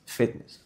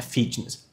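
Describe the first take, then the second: First: "fitness" said as "fetness"; soft "fitness" with eh-like first vowel; short-i version. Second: "fitness" said as "feetness"; tense ee in the first vowel of "fitness"; wrong long-i version. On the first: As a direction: relax the i in "fitness" toward ê. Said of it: "Que é diferente". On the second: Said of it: "Não é fitness". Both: Shown as a demonstration.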